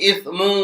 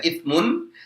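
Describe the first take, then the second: First: The word ends with a short mu syllable. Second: The word ends with a full mun syllable. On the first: The reader carries on into the next words. "Kalau dilanjutkan juga boleh" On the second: The word is read normally, not at a stop. "Kalau dibaca biasa seperti ini maka dibaca itsmun"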